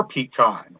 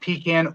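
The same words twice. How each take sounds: First: "pecan" said pee-KAHN, A as in father; "pecan" ending in a long KAHN; pee-KAHN pronunciation. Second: "pecan" said pee-KAN, A as in cat; "pecan" ending just like can; pee-CAN pronunciation. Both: Shown as a demonstration. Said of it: "they're not pecan or pecan".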